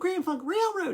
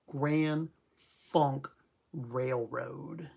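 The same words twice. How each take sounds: First: The name is said lightly, without force. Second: The name is said heavily, with force. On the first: The speaker calls it wrong. "you can't say, oh" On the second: The speaker calls it right. "The name's got weight"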